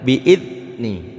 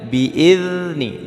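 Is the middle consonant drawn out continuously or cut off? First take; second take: cut off; continuous. First: The middle consonant is a short stopped sound. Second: The middle consonant is a continuous hissing sound. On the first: The speaker calls it wrong. "jangan bi'idni, jangan putus" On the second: The speaker calls it right. "jangan putus tapi harus berseret"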